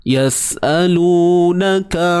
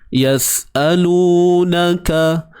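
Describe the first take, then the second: Both takes have the same delivery.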